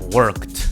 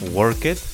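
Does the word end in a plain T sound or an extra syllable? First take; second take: plain T; extra syllable. First: The ending is a plain T sound. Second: The ending is not a plain T sound. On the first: The speaker calls it right. "the sound is like a T" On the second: The speaker calls it wrong. "It is not worked"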